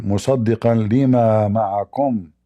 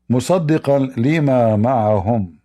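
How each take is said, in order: First: مَعَكُمْ recited fast, ending on "ma'akum", with you; fast Quran recitation of مُصَدِّقًا لِمَا مَعَكُمْ; Arabic recitation. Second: مَعَهُمْ recited fast, ending on "ma'ahum", with them; fast Quran recitation of مُصَدِّقًا لِمَا مَعَهُمْ; Arabic recitation. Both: Shown as a demonstration. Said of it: "They have difference between معكم or معهم".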